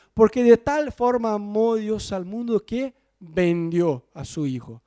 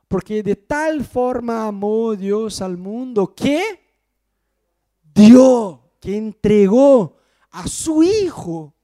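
First: Said in the usual way. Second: Slow verse with "dio" burst out very loud; correct verse, stress on dio. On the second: Shown as a demonstration. Preacher quoting John 3:16 correctly, loud "dio". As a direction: build slowly, then shout "dio". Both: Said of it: "Dios no vende, Dios da".

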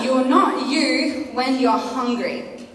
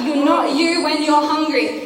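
First: Very slow, each word spaced; slow and emphatic. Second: Slowed, weighted slogan; slogan stated. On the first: Preacher making the youth remember the slogan, said very slowly. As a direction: drive it home word by word. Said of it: "I want you to remember this tonight". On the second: Preacher announcing tonight's message title, with steady weight. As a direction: lean on the title line. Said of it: "That is the title of my message tonight". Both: Shown as a demonstration.

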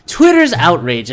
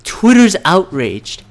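First: Said in the usual way. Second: Slow, drawn-out mocking Twitter's outraged, louder and higher; mock outrage. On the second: Ranting vlogger mocks the headline, slow sarcastic drawl. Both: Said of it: "It's like".

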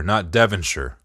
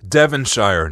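First: Devonshire ending in a short -sher; wrong pronunciation. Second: Devonshire said as Devon-shy-er, the shire like shy-er; Detroit pronunciation. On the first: Showing the wrong way: Devonshire said Devon-sher. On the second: Correcting his cohost: Devonshire with the shire as shy-er. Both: Shown as a demonstration.

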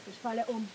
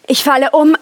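First: Near-silent, fading out; faint murmur. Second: Said in the usual way. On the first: Acted. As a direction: say it as she collapses, almost no voice. Else fällt in Ohnmacht. (fast tonlos, wie beim Umfallen)

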